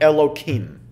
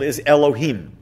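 First: The name is pronounced with a slightly altered sound. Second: The name is pronounced exactly as written. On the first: It is said outside prayer to avoid the holy name. "alter it slightly" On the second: It is said in prayer or Torah reading. "pronounced as they are written"

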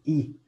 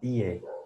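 First: The vowel is a thin, flat Spanish-style i. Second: The vowel is fuller and glides like 'ie'. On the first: The speaker calls it wrong. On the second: The speaker calls it right. "un poquito más gordita, como IE"

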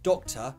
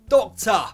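First: It is said in a standard accent. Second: It is said in a Cockney accent. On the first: "Regular person might say doctor" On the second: "a Cockney says it doctor"

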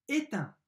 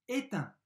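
No difference in how they are said.

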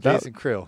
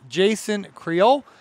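First: Creel is short and quick, one syllable. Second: Creel is drawn out and long. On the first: The speaker calls it right. "that's good. Just quick and it's one syllable" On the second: The speaker calls it wrong. "You kind of drug it out that time"

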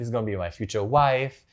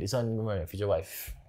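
First: It is said in the speaker's normal voice. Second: It is said in a put-on tough prisoner voice.

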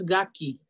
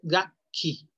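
First: The middle k sound is short and single. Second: The middle k sound is held long, doubled. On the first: The speaker calls it wrong. "No es gaki" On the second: The speaker calls it right. "Es gaki. Con doble K"

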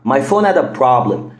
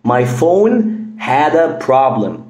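First: Said quickly with the h in 'had' dropped. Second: The h in 'had' is pronounced.

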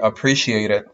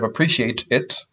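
First: The T in 'appreciate' is a quick, D-like flap. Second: The T in 'appreciate' is a clear, crisp T. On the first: The speaker calls it right. "you would say" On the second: The speaker calls it wrong. "Instead of"

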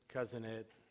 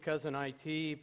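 First: IT is spoken as the single word 'it'. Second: IT is spoken as the two letters I-T. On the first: "my wife pronounces it Cousin It, like the Adams family" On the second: "My company's Cousin IT"

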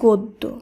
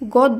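First: The first vowel is a rounded 'o' sound. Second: The first vowel is an open 'a' sound. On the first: The speaker calls it right. "শব্দটি শুদ্ধ উচ্চারণ হবে গদ্য" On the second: The speaker calls it wrong. "গদ্য নয়"

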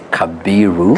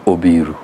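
First: The name has a b sound after ka. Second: The name begins with an o vowel. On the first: This is how Nairobi and schools say it. "Nairobi and the group of schools they say Kabiru" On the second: This is how the Nyanza region says it. "In Nyanza we remove the K and A. We put an O"

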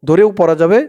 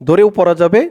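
The two takes are said the same way.

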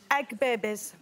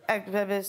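First: The words are spoken clearly. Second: The words are mumbled indistinctly.

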